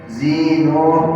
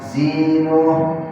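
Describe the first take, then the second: Both takes have the same delivery.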